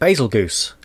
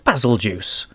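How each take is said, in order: First: The name ends with a hard g sound, goose. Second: The name ends with a soft j sound, juice. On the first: The speaker calls it wrong. "I've been calling it basil goose" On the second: The speaker calls it right. "It is basil juice"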